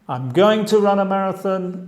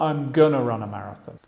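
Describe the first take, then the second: First: Going to is said as two words. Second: Going to is reduced to gonna.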